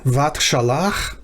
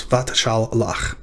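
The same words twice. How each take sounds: First: Said in the usual way. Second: Vat shal lach with a clear break between shal and lach, slowed; slow syllable split. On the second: Shown as a demonstration. Teacher sounding out Vat shal lach slowly for students. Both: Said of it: "vat shal lach is the syllables".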